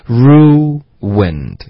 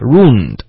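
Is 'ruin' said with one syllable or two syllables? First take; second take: two syllables; one syllable. First: Ruin has two syllables joined by a light w. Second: Ruin is squeezed into a single syllable. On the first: The speaker calls it right. "是一个很轻的一个w 的音……所以你要想成这样" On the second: The speaker calls it wrong. "很多学生说快的时候呢，发成什么呢？就发ruined，然后就一个音节了"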